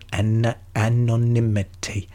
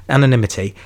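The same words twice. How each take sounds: First: Stumbling slowly through "anonymity" syllable by syllable; careful slow try. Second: "anonymity" said smoothly and a bit louder, nailed at last; got it right. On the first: Podcaster fumbling the word anonymity, slow and careful. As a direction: sound out "anonymity" slowly, feeling for each syllable. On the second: Podcaster finally nails anonymity, quick and confident. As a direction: land "anonymity" cleanly in one go. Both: Shown as a demonstration. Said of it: "There we go, bang".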